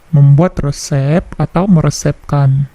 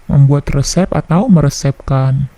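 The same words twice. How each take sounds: The two takes are said the same way.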